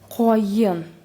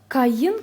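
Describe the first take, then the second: First: The first vowel sounds like 'o'. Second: The first vowel sounds like 'a'. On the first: "то произносится это слово коен" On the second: "которое написано, если читаем буквы"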